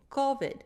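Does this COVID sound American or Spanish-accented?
Spanish. The first vowel has a Spanish-style O sound. "if you come from a Spanish speaking country, you're probably going to say co"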